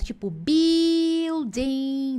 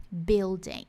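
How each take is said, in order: First: Building dragged very slowly with a wide open i; wrong open i. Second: Building with a closed i. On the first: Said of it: "Ele não é um i aberto". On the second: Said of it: "isso, ele é fechado". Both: Shown as a demonstration.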